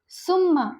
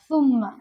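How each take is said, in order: First: The word begins with a hissing 's' sound. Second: The word begins with a soft 'th' sound. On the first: The speaker calls it wrong. "हम इसे सीन से पढ़ते हैं" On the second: The speaker calls it right. "सुम्मा का मतलब होता है फिर"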